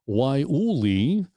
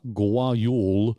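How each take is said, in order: First: The word begins with a W sound. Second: The word begins with a hard G sound. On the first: The speaker calls it right. "I'll say it correctly" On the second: The speaker calls it wrong. "although it looks like Gual"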